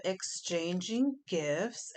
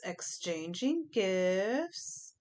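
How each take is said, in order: First: Said in the usual way. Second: Stretched slowly, softer; slow drawn-out repeat. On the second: Shown as a demonstration. Reader savouring the card name, slow and drawn out. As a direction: draw the words out slowly, savouring them.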